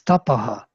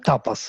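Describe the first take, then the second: First: The word ends with an h and echoed vowel. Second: The word ends with a plain s sound. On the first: The speaker calls it right. "It's tapaha" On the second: The speaker calls it wrong. "There is no tapas"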